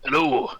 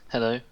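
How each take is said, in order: First: It is said in a put-on dwarf voice. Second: It is said in an ordinary natural voice.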